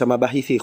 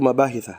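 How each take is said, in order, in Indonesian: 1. Kata itu berakhir dengan vokal 'i'. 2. Kata itu berakhir dengan vokal 'a'.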